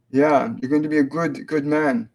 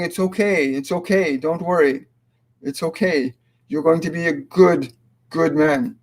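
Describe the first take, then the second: First: Said in the usual way. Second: A mother reassuring her nervous son, gently; gentle mother's comfort. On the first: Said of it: "repeats message in own voice". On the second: Retold or imitated. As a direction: comfort a scared son, lightly voiced. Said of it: "grabbing his cheeks and saying".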